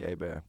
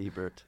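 First: The name is said in a French-sounding way. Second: The name is said in a plain American way. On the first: This is the version the speaker prefers. "I want it to be Hebert" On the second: This is how most people usually say it. "but it's generally Hebert"

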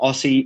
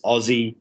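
First: The middle consonant is a hissing s sound. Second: The middle consonant is a buzzing z sound. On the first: The speaker calls it wrong. "You guys say Aussie. It's not Aussie" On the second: The speaker calls it right. "It's Aussie. The S's are Z's"

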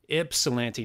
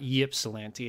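First: The word begins with an 'ip' sound. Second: The word begins with a 'yip' sound. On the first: The speaker calls it right. "It's Ips" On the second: The speaker calls it wrong. "not Ypsilanti"

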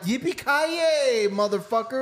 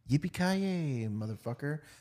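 First: It is said forcefully and with energy. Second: It is said casually, without force.

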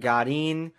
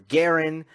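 First: The name is said in its original, non-American way. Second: The name is said the way Americans say it. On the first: The speaker calls it right. "if you want to say it correctly" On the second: The speaker calls it wrong. "if you want to sound like an American"

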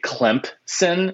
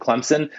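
First: A p sound is heard before the s. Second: No p sound is heard before the s. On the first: The speaker calls it wrong. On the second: The speaker calls it right.

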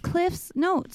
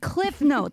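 First: An s sound follows cliff before notes. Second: No s sound; said as one word. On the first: The notes belong to someone named Cliff. "it's cliff's notes with an apostrophe" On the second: It is a single compound name. "like one word"

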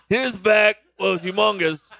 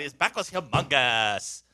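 First: It is said like an Ozark character. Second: It is said in a Valley Girl voice.

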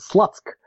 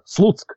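First: The name is said with an English pronunciation. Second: The name is said with a Belarusian pronunciation. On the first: "if you spell it in English, it's pronounced as Slutsk" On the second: "this city in Belarus which is called Slutsk"

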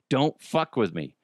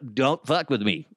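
First: It is said in an ordinary speaking voice. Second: It is said in a put-on stuttering cartoonish voice.

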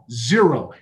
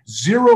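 First: It is said at normal volume. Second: It is said loudly.

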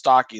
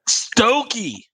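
First: The first vowel sounds like in 'stock'. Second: The first vowel sounds like in 'stoke'. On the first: The speaker calls it right. "Ryan corrected me. He's all, no, dude, it's stocky" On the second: The speaker calls it wrong. "What'd you think it was? Stokey"

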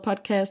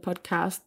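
First: It is said with a British English pronunciation. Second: It is said with an American English pronunciation. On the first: "om man mest taler britisk engelsk" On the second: "eller amerikansk engelsk"

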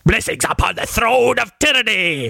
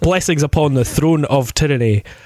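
First: It is said in a theatrical put-on voice. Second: It is said in an ordinary speaking voice.

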